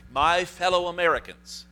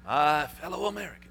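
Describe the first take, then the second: First: Raised, loud presidential address; politician. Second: A hint of a presidential impersonation; Nixon voice. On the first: Retold or imitated. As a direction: announce it like a president opening a speech. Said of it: "in it I said". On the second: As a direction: put on a touch of an old president.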